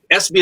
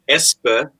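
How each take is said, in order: First: The name is said with English vowel sounds. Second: The name is said with Norwegian vowel sounds.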